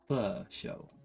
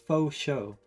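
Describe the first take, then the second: First: The first word sounds like 'fuh'. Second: The first word sounds like 'foe'. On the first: The speaker calls it right. "It's pho show" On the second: The speaker calls it wrong. "that's not the right way to pronounce it"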